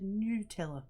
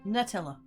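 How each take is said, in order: First: The first syllable sounds like 'new'. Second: The first syllable sounds like 'nut'. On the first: The speaker calls it wrong. "I don't fully get how we got to Nutella" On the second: The speaker calls it right. "Cause like it's meant to be nuts"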